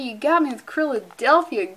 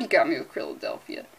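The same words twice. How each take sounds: First: Said in the usual way. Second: "you got me with Krilladelphia" lower and softer, worn down; defeated mutter. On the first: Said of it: "repeated joke line". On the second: Shown as a demonstration. Host conceding defeat to a pun, low and soft. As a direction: give in to the pun, quiet and low. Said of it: "Good God".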